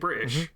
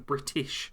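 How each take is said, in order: First: The T sound in the word is dropped. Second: The T sound in the word is pronounced. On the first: "I say British rather than" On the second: "rather than British"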